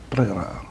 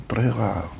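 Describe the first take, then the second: No difference in how they are said.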